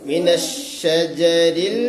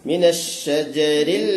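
No difference in how they are said.

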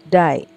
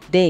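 First: The vowel sounds like the one in 'die'. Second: The vowel sounds like the one in 'day'. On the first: "Kalau die itu jadinya seperti ini" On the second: "Kalau day, ini bacanya day"

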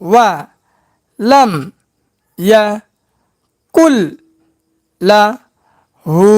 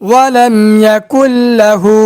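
First: Each syllable is said separately with breaks. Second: The syllables are joined into smooth words. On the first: "ভাঙ্গা ভাঙ্গা উচ্চারণ" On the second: "এবার একসঙ্গে উচ্চারণ করব"

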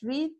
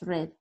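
First: The vowel is long, sounding like 'reed'. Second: The vowel is short, sounding like 'red'. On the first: It is the present tense. "Presente es read" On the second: It is the past tense. "pasado es read"

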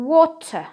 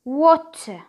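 First: It has a British accent with a clear t. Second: The same.

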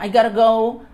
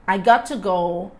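First: 'Got to' is reduced and run together. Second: 'Got to' is said as two full words. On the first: "que um nativo falaria utilizando as abreviações" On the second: "Ao invés de"

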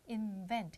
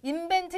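First: The v is made with teeth on lip. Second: The v is not made with teeth on lip. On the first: The speaker calls it right. "V 사운드니까 윗니 아래 입술" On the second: The speaker calls it wrong. "invent 아닙니다"

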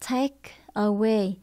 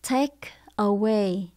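The two takes are said the same way.

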